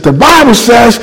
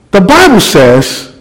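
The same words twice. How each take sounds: First: High, bold declaration; now he owns the pulpit; confident preaching. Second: Slow, halting opening words; unsure of himself, easing in; hesitant start. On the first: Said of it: "and I began to preach". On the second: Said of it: "I'm still stuttering". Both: Retold or imitated.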